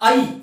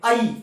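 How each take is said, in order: First: The vowel starts with an 'a' sound. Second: The vowel starts with an 'a' sound.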